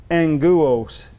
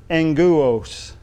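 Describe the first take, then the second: No difference in how they are said.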